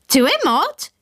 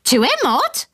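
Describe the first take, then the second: First: High shrill parrot squawk with a rising end. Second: High parrot squawk with a rising end. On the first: Narrator mimics the parrot's squawk, high and rising. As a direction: squawk it like a parrot asking a question. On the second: Narrator repeats the parrot's squawk, high and rising. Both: Retold or imitated. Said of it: "it had squawked".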